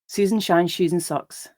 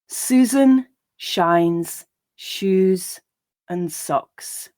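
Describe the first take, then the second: First: The line is read at a natural speed. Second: The line is read slowly. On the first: "and then at a more natural pace" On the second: "I'll read each line slowly"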